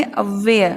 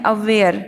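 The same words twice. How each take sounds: First: अवेयर ending in a schwa, "uh-WAY-uh"; teacher's model of r-less अवेयर; silent r. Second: अवेयर with a final r, "a-WAY-er"; the common reading, अवेयर ending in r; r sounded. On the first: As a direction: drop the r at the end of अवेयर. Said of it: "आर को नहीं बोलेंगे". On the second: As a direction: say अवेयर and pronounce the r. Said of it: "किसको silent करना होगा". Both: Shown as a demonstration.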